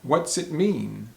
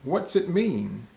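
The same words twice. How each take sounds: First: What and does are shortened into one syllable. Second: The same.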